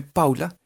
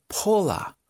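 First: Said in the usual way. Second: Paula said "pola", with an open O; English pronunciation. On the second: Shown as a demonstration. (Paula a la inglesa, "pola") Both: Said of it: "en inglés se pronuncia".

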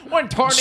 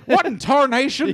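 First: High hammed-up Texan cowboy voice; co-host joining the joke, mock Texan accent. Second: High, slow hammed-up Texan drawl; mocking his Texan roots, hammed-up Texan accent. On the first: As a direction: echo the cartoon Texan line. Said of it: "in a Texan accent". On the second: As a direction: play a cartoon Texan cowboy. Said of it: "still do it in a Texan accent".

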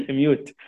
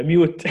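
First: Slow, laughing through the word. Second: Said in the usual way. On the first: Shown as a demonstration. Teacher laughing at his own pun ميوت, slowly.

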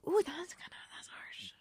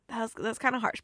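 First: Breathy hushed ooh, that's harsh; whispered reaction. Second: Said in the usual way. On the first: Real, not acted. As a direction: whisper it as if wincing.

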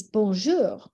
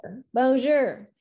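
First: "bonjour" with a French lilt; proper French. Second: Bonjour said with flat American vowels and a hard r; Americanized "Bonjour, bonjour," no French lilt; American-accented French. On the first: Showing how French is really said, French pronunciation. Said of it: "but the reality is". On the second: Mocking Americans who overlay their accent, American accent. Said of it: "overlay their American accent". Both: Shown as a demonstration.

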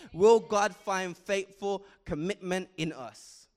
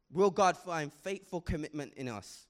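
First: Louder, slower, each word driven home; a slow, loud preacher's challenge; emphatic preaching. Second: Said in the usual way. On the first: Acted. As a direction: drive the question home to the congregation.

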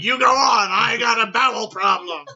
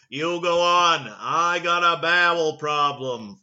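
First: Higher, much louder strained yell; JFK shouting. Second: A hint of a presidential voice, louder and slowed down; measured, louder and a little slow, as the president would say it; JFK. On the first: Retold or imitated. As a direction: bellow it like a president in distress. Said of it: "He's like". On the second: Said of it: "Actually, that's not how he would sound".

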